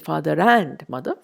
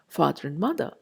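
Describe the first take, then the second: First: The word and is said in full. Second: The word and is reduced and blended in. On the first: The speaker calls it wrong. "You don't say father and mother" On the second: The speaker calls it right. "we use the weak form of this conjunction"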